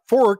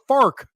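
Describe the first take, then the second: First: The vowel sounds like the one in 'or'. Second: The vowel sounds like the one in 'ar'. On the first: "it's not a fork" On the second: "in Saint Louis, it's a fark"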